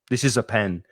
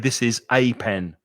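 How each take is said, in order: First: The article 'a' is said in a weak form. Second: The article 'a' is said in its full form. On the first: The speaker calls it right. "usually it's pronounced weak" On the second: The speaker calls it wrong. "I would not say"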